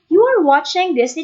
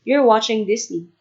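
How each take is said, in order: First: It is said in a light, friendly way. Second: It is said in a flat, serious way. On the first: It fits the brand's cheerful style. The speaker calls it right. "So it sounds like this" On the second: It does not fit the brand's cheerful style. The speaker calls it wrong. "Parang seryoso"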